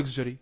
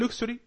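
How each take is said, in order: First: Luxury with voiced "gzh", "LUG-zheree"; alternative pronunciation. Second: Luxury with "ksh", "LUK-shree", pitched high as a question; pronunciation option. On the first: Teacher giving the other option, luxury as "LUG-zheree". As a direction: say luxury with a g and soft zh. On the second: Teacher asking which pronunciation is right, luxury as "LUK-shree". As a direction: say luxury with unvoiced k-sh, rising. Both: Shown as a demonstration. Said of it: "أنا عايز أعرف النطق إزاي".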